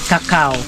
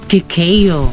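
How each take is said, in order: First: The second syllable sounds like 'ka'. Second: The second syllable sounds like 'kay'. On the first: The speaker calls it wrong. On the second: The speaker calls it right.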